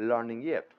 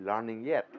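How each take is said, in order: The two takes are said the same way.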